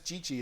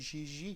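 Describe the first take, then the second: First: The name is said in an English way. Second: The name is said in a French way. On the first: This is how most people say it. "Everyone says Gigi" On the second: This is the name's original form. "It's actually a French name, and you say Gigi"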